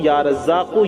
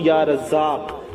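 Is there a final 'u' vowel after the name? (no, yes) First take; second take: yes; no. First: The name ends with an added u vowel. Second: The name ends on a consonant without vowel. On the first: The recitation continues without stopping. "जहां मिलाकर पढ़ेंगे लगातार वहां या रज़्ज़ाक़ु" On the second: The recitation stops here. "जहां ठहरेंगे वहां या रज़्ज़ाक़ पढ़ेंगे"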